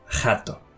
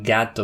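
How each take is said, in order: First: The G sound at the start is changed. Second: The word begins with a hard G sound. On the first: "they would say jato" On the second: "instead of saying gato"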